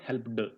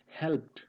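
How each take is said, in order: First: The word is said as two syllables. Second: The word is said as one syllable. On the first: The speaker calls it wrong. "It's not helped" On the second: The speaker calls it right. "It's helped"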